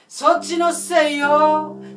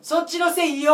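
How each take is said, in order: First: The final syllable is drawn out and tossed away. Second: The final syllable is cut off short. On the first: The speaker calls it right. "捨てる感じになってる" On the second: The speaker calls it wrong. "もう切っちゃう"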